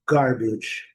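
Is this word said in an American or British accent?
American. An R sound follows the first vowel. "E o inglês americano"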